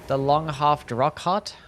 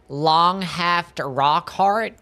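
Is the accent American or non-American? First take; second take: non-American; American. First: It is said in a non-American accent. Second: It is said in an American accent.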